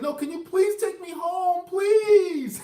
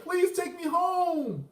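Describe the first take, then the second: First: High, loud mock desperate plea; imitating a crying plea. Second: High, slow, whiny mock plea; imitating a tearful plea. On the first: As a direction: imitate her begging in tears, louder on the last please. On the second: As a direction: drag it out like a begging girl. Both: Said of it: "she started to cry".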